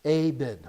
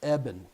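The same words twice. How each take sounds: First: "Aben" with a long A, AY-ben; wrong pronunciation. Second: "Eben" with a short E, EH-ben; corrected pronunciation. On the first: Host saying the guest's name before a producer's correction, "Aben" as AY-ben. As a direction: say "Aben" as AY-ben, stressing the first syllable. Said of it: "telling me how to say things the right way". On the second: Host fixing the guest's name after a producer's correction, "Eben" as EH-ben. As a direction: say "Eben" as EH-ben, careful and deliberate. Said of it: "Did I put the wrong emphasis on the wrong syllable?".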